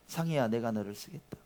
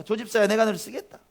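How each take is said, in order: First: Soft, calm call to 상희야 as the Lord; the Lord calling softly. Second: Much higher and louder, ringing out 조 집사야; fervent call of the Lord. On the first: Pastor voices the Lord calling a member, softly. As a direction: gently speak 상희야 as the Lord would. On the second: Pastor voices the Lord calling, at the climax, loud. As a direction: proclaim 조 집사야 with full force as the Lord. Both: Acted. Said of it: "주님 말씀하십니다".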